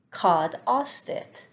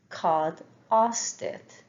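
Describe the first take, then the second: No difference in how they are said.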